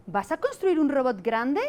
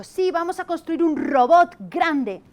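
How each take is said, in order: First: Slow, clear teacher modelling the right word order; teacher recasting the sentence. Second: Put-on higher, louder, slow child's voice, proud; imitating a little child. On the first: Retold or imitated. Teacher models correct phrase to boy, slow and clear. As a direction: spell out the correct sentence gently for the child. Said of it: "Y entonces yo le he dicho". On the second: Another child repeats teacher's sentence, high childish voice. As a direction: play an eager small boy repeating it. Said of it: "ha venido otro y le ha dicho".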